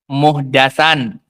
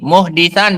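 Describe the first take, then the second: First: The vowel after the d is 'a'. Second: The vowel after the d is 'i'. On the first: It means an innovated matter in religion. "menfathah dal" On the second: It means the person who commits the crime. "bikasrid dal"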